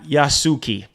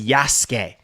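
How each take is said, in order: First: The name ends with an 'ee' vowel sound. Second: The name ends with an 'eh' vowel sound. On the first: The speaker calls it wrong. "not Yasuki" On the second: The speaker calls it right. "Apparently his name is pronounced Yasuke"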